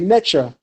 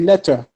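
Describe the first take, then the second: First: The middle consonant is a ch sound. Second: The middle consonant is a t sound. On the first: This is the Middle Kingdom form. "If you're looking at the Middle Kingdom, you'll probably say Necher" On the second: This is the New Kingdom form. "if you're looking at the New Kingdom, you'll say Neter"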